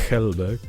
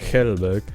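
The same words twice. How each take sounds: Both takes have the same delivery.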